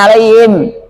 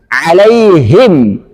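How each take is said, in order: First: The hi sound is faint. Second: The hi sound is clearly heard. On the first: The speaker calls it wrong. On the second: The speaker calls it right. "hi-nya harus jelas kentara"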